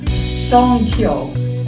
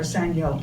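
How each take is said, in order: First: The word is said as 'songkyo'. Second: The word is said as 'sangyo'. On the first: The speaker calls it right. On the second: The speaker calls it wrong.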